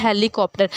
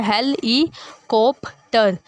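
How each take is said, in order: First: Said in the usual way. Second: "हेल ई कॉप्टर" slowly as हेल, ई, कॉप, टर; divided syllables. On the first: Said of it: "जैसे word है हेलीकॉप्टर". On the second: Shown as a demonstration. Teacher demonstrating pronunciation, "हेल ई कॉप्टर" in separate slow beats. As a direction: pause after each piece of "हेल ई कॉप्टर". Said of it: "pronunciation देखें".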